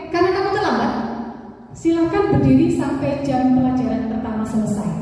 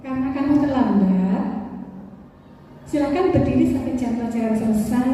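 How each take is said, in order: First: Karena kamu terlambat said with a falling, firm tune; a hint of a stern punishing teacher; punishing intonation. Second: Karena kamu terlambat said with gentle rises so it sounds less punishing; mildly gentle rising delivery of a punishment; soft rising intonation. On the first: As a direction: deliver the sentence as a firm penalty. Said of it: "posisinya adalah sekarang sebagai penghukum". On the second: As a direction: soften the punishment with a lilting tune. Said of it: "Seakan-akan bukan menghukum, gitu, karena intonasi". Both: Shown as a demonstration.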